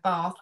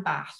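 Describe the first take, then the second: First: Bath with a long ah, as in father; long-vowel Bath. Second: Bath with a short a, as in cat; short-vowel Bath. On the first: Lexicographer shows dictionary variants, Bath with a long ah. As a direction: say Bath the southern way, drawn-out vowel. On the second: Lexicographer shows dictionary variants, Bath with a short a. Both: Shown as a demonstration. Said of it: "pronunciation for both Bath and Bath".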